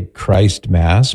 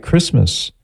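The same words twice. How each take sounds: First: Christ Mass as two slow words; T pronounced. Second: Christmas with no T, Chris-mus; silent T. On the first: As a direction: say Christ Mass with a long I and sounded T. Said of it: "You could say". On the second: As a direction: drop the T in Christmas. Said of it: "have a silent T". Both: Shown as a demonstration.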